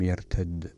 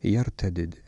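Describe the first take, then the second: First: The two d sounds merge into one doubled d. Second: The two d sounds are pronounced separately. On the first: This follows the Tamimi dialect usage. "وأما على لغة التميميين يقرأ بالإدغام" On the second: This follows the Hijazi dialect usage. "إذا كان على لغة الحجازيين يقرأ بالفك هكذا"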